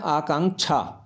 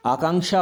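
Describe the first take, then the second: First: आकांक्षा with "chha" for the last syllable; misspelt form. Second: आकांक्षा ending in "ksha" or "sha"; correct form demo. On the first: Teacher reading what is written, आकांक्षा ending in chha. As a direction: end आकांक्षा on aspirated chh. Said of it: "अब ये क्या लिखा है". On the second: Teacher correcting children, आकांक्षा ending in sha. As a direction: soften the end of आकांक्षा to sha. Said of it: "आकांक्षा होता है". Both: Shown as a demonstration.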